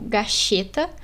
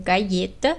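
First: The word is said with an Argentine accent. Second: The word is said with a Chilean accent.

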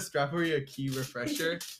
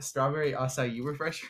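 First: Acai is said like the two words 'a key'. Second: Acai is said with three syllables, not 'a key'. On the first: The speaker calls it wrong. "I called it a key for like the longest time" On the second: The speaker calls it right. "do you mean the strawberry acai refresher?"

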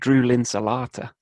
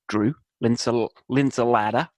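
First: The name is said in a posh English accent. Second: The name is said in a New York accent. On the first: "how to pronounce your name in an English accent. It's not easy. I'll sound posh" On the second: "Very New York"

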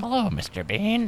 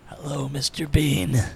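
First: It is said in a very high voice. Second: It is said in a deep grown-up voice.

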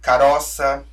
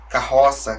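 First: A softer R, as in Italian-descended speakers. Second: A stronger R, as in typical Brazilian speech.

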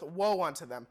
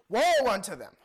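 First: It is said flatly, without force. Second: It is said louder, with exclamation.

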